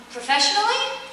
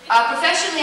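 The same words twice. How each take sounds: First: Professionally? rising up at the end like a query; questioning rise. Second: Professionally said with a falling, decided tune; settling fall. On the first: Echoing the fan's question back with a rising tune. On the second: Starting her answer to the fan with a falling tune. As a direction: land professionally down as the answer begins. Answering after echoing question. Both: Real, not acted.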